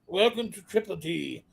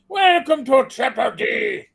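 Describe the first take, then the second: First: It is said in the speaker's ordinary voice. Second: It is said in a put-on pirate voice. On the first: The speaker calls it wrong. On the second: The speaker calls it right.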